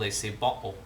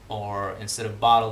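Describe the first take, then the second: First: The final L sounds like a back rounded vowel. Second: The final L is a consonant sound. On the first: "pronouncing the L as um, as a relatively close uh, back rounded vowel" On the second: "instead of"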